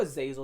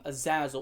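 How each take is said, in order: First: "Azazel" said the second of two ways; alternative pronunciation. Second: "Azazel" said the first of two ways; first pronunciation. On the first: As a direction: offer "Azazel" with its alternative vowel. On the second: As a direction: offer "Azazel" in one common pronunciation. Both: Shown as a demonstration. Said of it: "depending how you wanna pronounce it".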